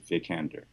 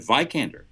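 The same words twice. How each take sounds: First: The first vowel is not an 'eye' sound. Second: The first vowel sounds like 'eye', as in Viking. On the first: The speaker calls it right. "the way you pronounce it is Vikander" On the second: The speaker calls it wrong. "others have said Vikander with an I sound"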